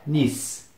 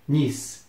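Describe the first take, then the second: No difference in how they are said.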